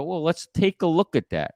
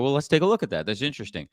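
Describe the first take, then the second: First: Even, curious challenge; calm challenge. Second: Even, curious challenge, softening at the end; calm challenge. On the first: Consultant to employer, calmly challenging the claim. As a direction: invite them to look at the facts. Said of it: "here's a way you can do it". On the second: Consultant pulling up a slide for the employer, calm and curious. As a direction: lead them gently to the slide. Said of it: "I go to and go". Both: Shown as a demonstration.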